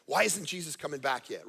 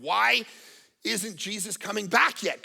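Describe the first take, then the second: First: Said in the usual way. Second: Why isn't he back, with a punched why; impatient why, stretched out with a pause; impatient question. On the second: Retold or imitated. Preacher voicing impatient believers, a slow impatient question. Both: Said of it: "I hear people say".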